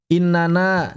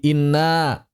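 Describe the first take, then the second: First: "Innana" in full, in-na-na; bentuk asli. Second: Slow "inna" with a held double n; bentuk idgham. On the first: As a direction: keep both na syllables in "Innana". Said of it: "Jadi inna". (lafalkan "Innana" lengkap dengan dua na) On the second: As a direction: shorten to "inna", lingering on the nun. (lafalkan "inna" perlahan, nun ganda ditahan) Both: Shown as a demonstration.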